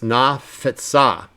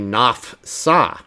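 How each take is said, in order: First: A short vowel is heard after the f. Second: No vowel is heard between the f and s. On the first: The speaker calls it right. "So that means it's got to be vocal" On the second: The speaker calls it wrong. "If you didn't say it correctly, you might say"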